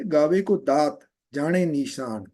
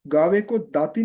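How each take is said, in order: First: दात with the final vowel dropped, slowly; correct pronunciation. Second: गावे को दाती with the final ी sounded; wrong pronunciation. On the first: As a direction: say दात, not दाती, and निशान clipped. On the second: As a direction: say दाती keeping the ending i. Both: Shown as a demonstration. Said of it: "नहीं बोलेंगे".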